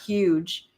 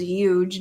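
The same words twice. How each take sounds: First: "huge" with a clear h before the y sound. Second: "huge" said as "yuge", no h; yuge, h dropped. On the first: Contrasting with Trump's version, "huge" with the h sounded. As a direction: say "huge" as "hyooj", h first. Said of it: "says huge, not huge". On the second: Explaining Trump's habit to viewers, "huge" said as "yuge". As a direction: say "huge" starting on a y sound: yuge. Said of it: "Donald Trump says huge". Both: Shown as a demonstration.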